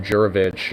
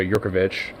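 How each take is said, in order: First: "Jurovich" with no k sound; first pronunciation. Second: "Jurkovich" with an added k; alternative pronunciation. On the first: Giving a songwriter's surname, first pronunciation without k. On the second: Offering another way to say the surname, k sounded. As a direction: put a k before "-ovich" in "Jurkovich". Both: Shown as a demonstration. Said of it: "depending on how you pronounce it".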